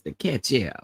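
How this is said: It is said in an imitated Wanda voice.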